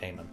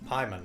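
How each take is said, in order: First: The first vowel sounds like 'ay'. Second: The first vowel sounds like 'eye'. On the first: The speaker calls it wrong. "not Payman" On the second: The speaker calls it right. "Pyman, not Payman"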